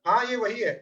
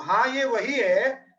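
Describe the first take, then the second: First: Said in the usual way. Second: Drawn-out, deliberate "हाँ, ये वही है"; slow remembering voice; slow emphatic recognition. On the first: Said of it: "आया ना". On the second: Retold or imitated. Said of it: "तो".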